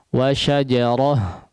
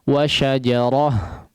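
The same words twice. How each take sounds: First: The word ends with a soft 'ah' sound. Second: The same.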